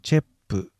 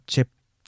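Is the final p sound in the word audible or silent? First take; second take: audible; silent. First: The final p sound is clearly pronounced. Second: The final p sound is not audibly released. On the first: The speaker calls it wrong. "どうしてもチェップと言ってしまいがちです" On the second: The speaker calls it right. "本来この音は聞こえない音です。魚はチェップですが"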